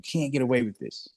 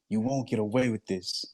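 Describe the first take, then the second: First: It is said angrily and loudly. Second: It is said sadly in a lower tone.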